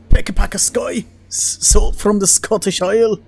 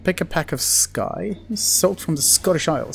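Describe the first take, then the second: First: Put-on terrible Scottish accent. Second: Said in the usual way. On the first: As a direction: do a bad, broad Scottish accent. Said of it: "terrible Scottish accent coming from me".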